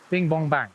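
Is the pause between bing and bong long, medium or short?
short. There is a short pause after bing. The mend lands far away, by the leader. "I want to put a mend in right by the leader"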